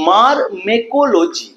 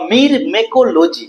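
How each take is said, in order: First: The first syllable is pronounced 'mar'. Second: The first syllable is pronounced 'mir'. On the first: "মির বা মার যেমন খুশি উচ্চারণ করতে পারো" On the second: "মির বা মার যেমন খুশি উচ্চারণ করতে পারো"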